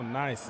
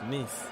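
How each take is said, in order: First: The vowel is said like in 'nice'. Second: The vowel is said like in 'niece'. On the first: The speaker calls it wrong. "it's not nice" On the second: The speaker calls it right. "It's niece"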